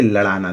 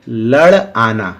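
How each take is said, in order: First: The parts run together with no pause between them. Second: There is a short pause between the two parts. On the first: One word with a different meaning is heard. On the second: Two separate words are meant.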